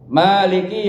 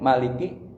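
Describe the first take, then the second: First: The first vowel is long. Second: The first vowel is short. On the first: The one who holds power over it. "dibaca panjang aja" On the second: The one who reigns as king. "kalau dibaca pendek"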